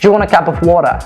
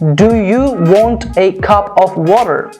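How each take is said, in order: First: The small words are reduced to a weak uh sound. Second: Every small word is pronounced fully and separately. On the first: The speaker calls it right. "They say" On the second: The speaker calls it wrong. "do not say"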